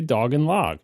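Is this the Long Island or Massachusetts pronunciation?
Massachusetts. It is said with a Massachusetts accent. "but I say dog and log"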